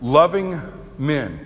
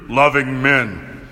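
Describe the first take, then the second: First: It is said in a normal voice. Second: It is said in a deep voice.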